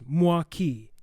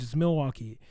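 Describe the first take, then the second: First: It uses a two-syllable native-style pronunciation. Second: It uses the standard broadcast pronunciation. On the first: This is the original native pronunciation. The speaker calls it right. "the true pronunciation is" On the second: This is how it is said on the news. The speaker calls it wrong. "if you hear it on the news"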